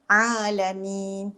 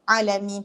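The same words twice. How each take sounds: First: The first vowel is said long. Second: The first vowel is said short. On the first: The speaker calls it right. "A tu mesti panjang" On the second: The speaker calls it wrong. "Tak boleh eh"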